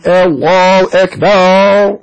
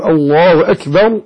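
First: أكبر drawn out with a long baa, higher; mock muezzin drawl on أكبر, slow; wrong stretched takbir. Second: أكبر said short with no long ba; plain, slow الله أكبر; correct takbir. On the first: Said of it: "يقولون". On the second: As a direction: say أكبر cleanly, ba unstretched. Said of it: "بدل أن يقول، يقول". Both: Shown as a demonstration.

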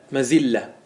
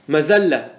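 First: مزلة said "mazilla", with an i; kasra form. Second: مزلة said "mazalla", with an a; fatha form. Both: Shown as a demonstration. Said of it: "ما ورد بالوجهين".

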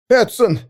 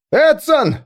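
First: High call across the dark. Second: Much higher, louder calling out; louder anxious call. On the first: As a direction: call a missing comrade. (громкий оклик) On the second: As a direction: call him again, now frightened. (громкий испуганный крик) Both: Acted. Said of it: "позвал кто-то".

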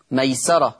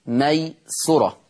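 First: Said in the usual way. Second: ميسرة read as maysura, with a u vowel on the sin; sin with damma. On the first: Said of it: "تقرأ بضم السين". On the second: Shown as a demonstration. Sheikh correcting the reading of the word for students. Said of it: "تقرأ بضم السين ميسرة".

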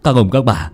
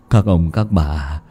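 First: Firm call to the crowd; rally the villagers; commanding address. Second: Low, slow, softer begging; pleading. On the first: Angry father calling the villagers to action, firm. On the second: Hoạch begging the villagers, low, slow and soft. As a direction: beg the crowd humbly. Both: Acted.

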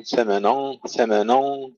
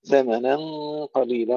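First: ثمنا with a thick, heavy ن; wrong heavy noon. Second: ثمنا with a light ن and heavy nasal hum; light noon. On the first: Teacher mimics students' error in ثمنا. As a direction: imitate the heavy ن mistake. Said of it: "يكسر الخطأ في النون". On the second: Teacher models the correct light ن. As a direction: keep the ن thin in ثمنا. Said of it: "أما النون فمرققة". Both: Shown as a demonstration.

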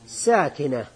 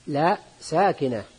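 First: Said in the usual way. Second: لا ساكنة said slowly with a firm لا; self-correcting teacher; correcting stress. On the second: Shown as a demonstration. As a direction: lean on لا to correct yourself.

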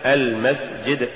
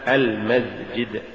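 First: Said in the usual way. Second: "المسجد" slowly, with buzzing z for s; sin becomes zay. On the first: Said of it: "استبدال السين بالزاي". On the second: Shown as a demonstration. Teacher showing an error, "المسجد" said with zay for sin. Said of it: "تقرأ لحنا".

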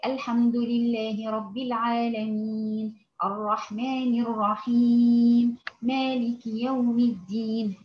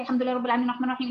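First: "الحمد لله رب العالمين" at a steady, moderate pace; not slow, not rushed, just even; moderate recitation. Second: "الحمد لله رب العالمين" rattled off very fast; rushed recitation. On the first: Teacher modelling the moderate middle speed. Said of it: "هو ده الإيه؟ التدوير". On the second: Teacher showing recitation that is too fast. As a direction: race through the verse. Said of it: "لا، لا، مش عايزة سريع كده". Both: Shown as a demonstration.

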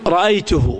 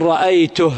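First: رأيته ending in a long "-huu"; linked pronoun vowel. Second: رأيته stopped on a bare breathed h, "ra'aytuh"; silent-vowel ha. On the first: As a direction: draw out the damma on the ha of رأيته. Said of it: "هاء الضمير". (نطق رأيته بصلة الهاء "رأيتهو") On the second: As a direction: end رأيته on h with no vowel after it. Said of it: "ووقف على الهاء ساكنة". (الوقف على رأيته بهاء ساكنة) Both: Shown as a demonstration.

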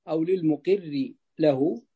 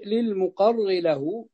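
First: للمقر with an "i" after the qaf, "muqirr"; للمقر read slowly with a short "i" on ق; kasra on the qaf. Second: للمقر with an "a" after the qaf, "muqarr"; للمقر read slowly with an open "a" on ق; fatha on the qaf. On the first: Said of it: "هذه عندي بالكسر". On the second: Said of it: "لا، فتح". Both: Shown as a demonstration.

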